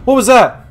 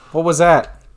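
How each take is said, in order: First: High shocked question; startled scream. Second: Louder shaken question; startled scream. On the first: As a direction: yelp it in fright. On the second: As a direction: ask it rattled. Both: Real, not acted.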